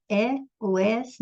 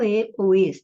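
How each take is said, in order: First: "é, ou es" with open E; open-mouthed E in "é" and "es"; open vowels. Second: "e, ou es" with closed E; tighter, closed E in "e" and "es"; closed vowels. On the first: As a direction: say "é, ou es" with both E sounds open, as in "pé". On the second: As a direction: say "e, ou es" with both E sounds closed, as in "você". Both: Shown as a demonstration. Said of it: "Se é aberto ou se é fechado".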